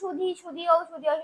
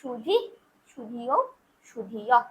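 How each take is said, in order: First: The endings are said plainly without emphasis. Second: The final visarga sounds are forcefully emphasized. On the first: It is unclear whether a visarga is present. The speaker calls it wrong. "এমনি প্লেন" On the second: The visarga is present in these forms. The speaker calls it right. "এই যে যেখানে আমি জোর দিলাম যে জায়গাগুলো"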